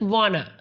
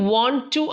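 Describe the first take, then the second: First: The words blend into one short reduced form. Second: Both words are said fully and separately. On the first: "അത് വാണ്" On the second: "do you വോണ്ട് ടു ആണ്"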